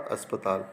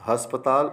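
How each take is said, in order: First: अस्पताल said lower and softer with a clean अ, no h; correct pronunciation. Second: अस्पताल said louder with an added h, like हस्पताल; wrong h-onset. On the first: Teacher giving students the correct form, soft अस्पताल without h. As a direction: say अस्पताल softly, starting on a plain अ. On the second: Teacher showing students the wrong form, louder हस्पताल with an h. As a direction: put an h before अस्पताल, as the common mistake. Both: Shown as a demonstration. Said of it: "स्वर या मात्रा संबंधी जो अशुद्धियाँ".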